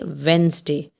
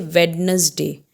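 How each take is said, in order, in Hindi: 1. 'd' की ध्वनि छोड़ी जाती है। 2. 'd' की ध्वनि बोली जाती है। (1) "We say Wednesday. So here D is silent" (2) "normally we mispronounce it. We say Wednesday"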